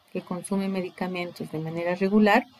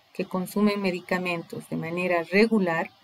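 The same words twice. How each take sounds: The two takes are said the same way.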